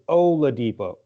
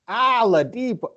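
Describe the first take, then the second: First: The name begins with a clear 'O' sound. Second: The name begins with an 'Al' sound. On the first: The speaker calls it right. "it's Oladipo, Oladipo, O L A Depot" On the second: The speaker calls it wrong. "I have a problem with the way Ken says Oladipo"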